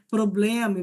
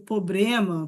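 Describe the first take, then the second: First: The word has an L sound after the b. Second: The word has an R sound after the b. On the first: This is the standard form. "não vai ser problema" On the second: This is the form heard from speakers who swap L for R. "vai trocar o L pelo R"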